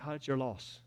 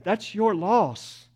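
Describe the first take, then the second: First: Much softer, tossed-off it's your loss; dropped, offhand loss. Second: Slow, stressing your loss firmly; slow, weighty loss. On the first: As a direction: let your loss fall away quietly. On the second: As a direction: lean on your and stretch it out slowly. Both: Shown as a demonstration. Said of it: "And if you reject it".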